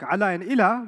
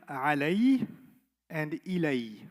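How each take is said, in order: First: The words end in an 'a' sound. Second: The words end in an 'ay' sound. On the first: The words are in their base form. "They don't sound like ala and ila" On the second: The words are used with an attached pronoun. "they sound like alay and ilay"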